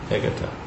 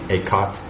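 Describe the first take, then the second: First: The name ends with a final vowel. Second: The name ends with a consonant.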